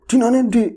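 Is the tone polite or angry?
angry. It is asked in an angry, harsh tone.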